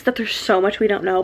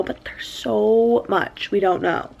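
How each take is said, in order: First: Said in the usual way. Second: Slow line with "so" stretched out long; stress on SO. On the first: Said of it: "I literally keep saying this". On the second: Real, not acted. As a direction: lean hard on "so", dragging it out. Repeats it for emphasis.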